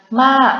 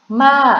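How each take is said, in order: No difference in how they are said.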